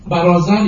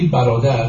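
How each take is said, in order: First: برازر with z in place of the middle d; old Persian pronunciation. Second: Said in the usual way. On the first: Shown as a demonstration. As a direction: buzz the z in برازر. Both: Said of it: "برازر یعنی برادر".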